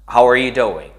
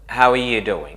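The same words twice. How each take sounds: First: The R is pronounced strongly with a raised tongue. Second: The R is very weak in quick speech. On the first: "putting your tongue up and clenching it, making it very strong" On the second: "in quick conversations, you just hear them like this"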